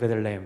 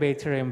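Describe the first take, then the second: First: It is said quickly with the syllables run together. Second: Every syllable of the full form is said clearly. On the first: "이게 빨리 발음해서 그렇지" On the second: "그게 사실은 베이트레헴"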